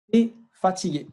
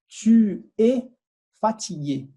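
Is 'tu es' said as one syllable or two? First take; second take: One; Two. First: Tu es is reduced to a single syllable, te. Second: Tu and es are said as two separate syllables. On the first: The speaker calls it right. "A forma natural seria de falar te" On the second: The speaker calls it wrong. "eu estou pronunciando ela de forma não natural"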